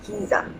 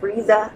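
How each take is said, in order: First: The name starts with an H sound. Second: The name starts with an R sound. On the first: "I'm Kiza. ... they pronounce the first R ... like it's H" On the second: "instead of Riza"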